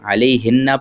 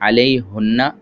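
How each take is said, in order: First: The pronoun is said with an i vowel. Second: The pronoun is said with a u vowel. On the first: The speaker calls it right. "अलैहिन्ना पढ़ेंगे" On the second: The speaker calls it wrong. "अलैहुन्ना नहीं पढ़ेंगे"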